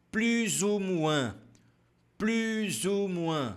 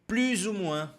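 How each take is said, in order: First: "Plus ou moins" very slow, lips rounded; slow model phrase; slow syllables. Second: Said in the usual way. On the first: Shown as a demonstration. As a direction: pout on "Plus", stretch "moins". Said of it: "perceba que nós temos o biquinho". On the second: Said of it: "Você pode também responder".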